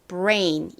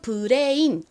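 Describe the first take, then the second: First: It is said with an English r and vowel. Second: It is said with Korean syllables and vowels. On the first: The speaker calls it right. "정확한 원어 발음으로는 brain" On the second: The speaker calls it wrong. "한국식으로는 브레인 이렇게 쓰지만"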